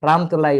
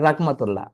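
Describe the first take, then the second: First: The name is said without an h sound. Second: The name is said with an h sound. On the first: The speaker calls it wrong. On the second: The speaker calls it right.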